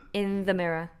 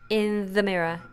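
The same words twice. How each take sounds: No difference in how they are said.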